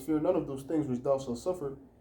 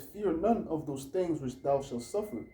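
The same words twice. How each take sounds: First: It is read at a normal pace. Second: It is read more slowly.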